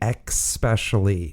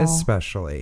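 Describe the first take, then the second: First: It begins with an 'ex' sound. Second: It begins with an 'ess' sound. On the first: The speaker calls it wrong. "with the X" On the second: The speaker calls it right. "instead of"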